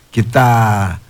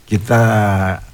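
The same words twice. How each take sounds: The two takes are said the same way.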